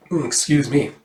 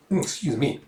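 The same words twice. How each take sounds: First: Said in the usual way. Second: Much softer, withdrawn excuse me; a hushed second try at excuse me; softer take. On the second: Shown as a demonstration. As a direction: murmur it as if embarrassed.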